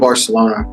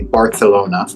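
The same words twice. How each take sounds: First: The name is said in a plain anglicized way. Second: The name is said in a native-style way.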